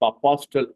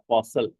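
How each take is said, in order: First: A t sound is pronounced in the middle. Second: No t sound is pronounced in the middle. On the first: The speaker calls it wrong. "அப்பாஸ்டல்னு சொல்லக்கூடாது" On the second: The speaker calls it right. "டி silent"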